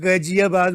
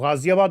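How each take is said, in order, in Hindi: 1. यह सख़्त 'g' से शुरू होता है, नुक़्ता की ध्वनि नहीं है। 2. यह गले वाले 'gh' से शुरू होता है, नुक़्ता की ध्वनियाँ रखी गई हैं। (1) "नुक्ता मत लीजिए ... आप गजियाबाद बोलिए" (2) "साफ साफ सीधा गाजियाबाद शब्द है"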